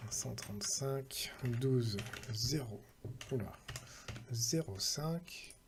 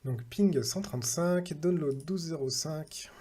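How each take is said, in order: First: Slow, quieter numbers read out one by one while typing; slow dictation. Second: Said in the usual way. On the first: Real, not acted. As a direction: spell out each number slowly as you write it down. Repeats numbers while typing them.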